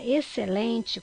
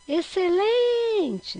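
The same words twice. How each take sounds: First: Said in the usual way. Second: Excelente called out, LEN drawn very long, high and loud; chamando a palavra. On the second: Shown as a demonstration. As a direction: call "excelente" stretching the stressed LEN. (excelente chamado, com o LEN bem longo e forte) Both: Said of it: "quando você chama essa palavra".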